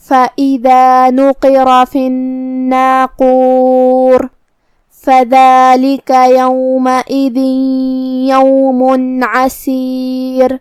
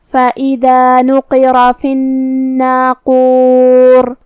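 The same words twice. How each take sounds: First: Very slow chanted tilawat; Quran recitation. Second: Slow melodic tilawat, each word stretched; Quran recitation. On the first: Teacher re-reciting the verses for her students, slow chant. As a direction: draw each word out in a measured chant. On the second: Teacher reciting the verse to her class, slow melodic chant. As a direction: chant the verse slowly and evenly. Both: Acted.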